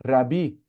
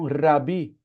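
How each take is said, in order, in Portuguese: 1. O R é um toque leve, como em português. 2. O R é um toque leve, como em português.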